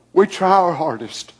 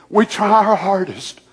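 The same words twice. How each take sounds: The two takes are said the same way.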